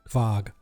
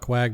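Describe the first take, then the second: First: The word begins with a v sound. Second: The word begins with a kw sound. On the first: "it's pronounced technically in the Germanic sort of tone" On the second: "you can call it Quag"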